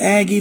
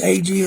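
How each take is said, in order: First: The name is said like 'Aggie', with a short first vowel. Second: The name is said as 'ay-gee', with a long first vowel. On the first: This is how some people say it. "some call it Aggie family" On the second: This is how the family's name actually goes. "but it's A G"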